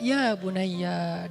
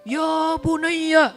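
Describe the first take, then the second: First: It sounds soft and tender, like comforting a child. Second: It sounds loud and preachy, like a sermon.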